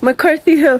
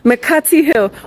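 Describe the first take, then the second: First: It is said with a North American accent. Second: It is said with a Ghanaian accent.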